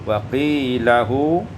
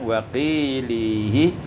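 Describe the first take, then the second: First: The word ends with the syllable hu. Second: The word ends with the syllable hi.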